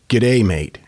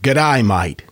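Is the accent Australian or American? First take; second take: American; Australian. First: It is said in an American accent. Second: It is said in an Australian accent.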